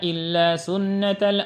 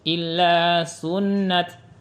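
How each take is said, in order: First: The word runs on with a vowel into the next. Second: The word stops on a final t sound. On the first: The reading continues without stopping. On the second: The reader pauses at this word.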